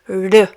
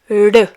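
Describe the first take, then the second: First: The R is a light, vibrating sound. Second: The same.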